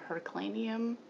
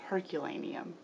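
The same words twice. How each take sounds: First: The start does not sound like 'Hercules'. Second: The start sounds like 'Hercules'. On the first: The speaker calls it wrong. "I kept saying Herculaneum" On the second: The speaker calls it right. "like Hercules"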